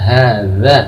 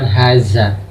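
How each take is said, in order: First: The middle consonant is a soft 'th' sound. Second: The middle consonant is a 'z' sound. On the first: The speaker calls it right. "Yang betul adalah hadza" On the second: The speaker calls it wrong. "bukan haza"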